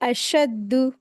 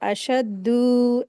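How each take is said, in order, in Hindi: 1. d के बाद का स्वर छोटा रखा जाता है। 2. d के बाद का स्वर लंबा खींचा जाता है। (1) "दाल को खींचेंगे नहीं ... बस ऐसे" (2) "दाल को खींच देते हैं, अशद्दु ऐसे पढ़ते, तो ये मिस्टेक है"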